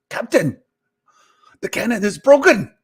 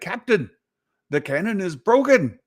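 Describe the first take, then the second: First: It is said in Scotty's voice from Star Trek. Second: It is said in his normal voice.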